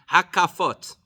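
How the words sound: It uses the Sephardic pronunciation.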